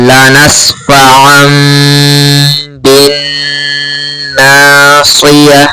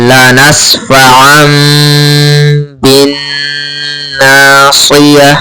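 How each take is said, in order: Both takes have the same delivery.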